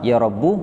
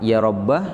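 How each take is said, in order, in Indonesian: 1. Kata ini diakhiri dengan vokal u pendek. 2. Kata ini diakhiri dengan vokal a pendek. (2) "boleh dibaca fathah"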